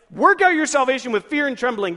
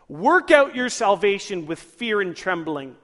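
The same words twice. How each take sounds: First: Loud, higher-pitched alarmed quote; urgent, mildly hammed-up dread; mock alarm. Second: Slow, emphatic verse reading, louder; measured, weighty quotation; deliberate scripture quote. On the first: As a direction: fire the verse out as a scary demand. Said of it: "That sounds like I'm supposed to live every moment of my life scared". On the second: Acted. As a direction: proclaim the verse slowly and firmly. Reads the verse as written.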